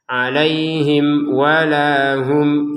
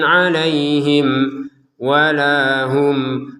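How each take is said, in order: First: The words run on without any pause. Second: There is a pause between the two words. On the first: The speaker calls it right. "Ini juga dibaca dengan jelas" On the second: The speaker calls it wrong. "kan ada jedanya"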